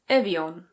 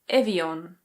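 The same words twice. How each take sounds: First: It is said with a British accent. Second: It is said with a British accent.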